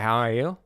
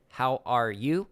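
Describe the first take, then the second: First: The words are slurred together into one sound. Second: Each word is said clearly and separately. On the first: The speaker calls it wrong. "The way that a slurred out sound would be like" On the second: The speaker calls it right. "instead of saying a sentence like"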